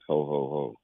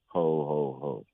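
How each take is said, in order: First: The ho ho ho is fairly quick. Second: The ho ho ho is drawn out slowly.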